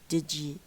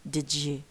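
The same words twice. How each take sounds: First: The d and y merge into one j sound. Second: The same.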